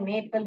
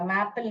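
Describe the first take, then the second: First: The first vowel is long, like 'may'. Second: The first vowel is short, like 'map'. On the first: The speaker calls it right. "मेपल होता है" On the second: The speaker calls it wrong. "मैपल नहीं होता है"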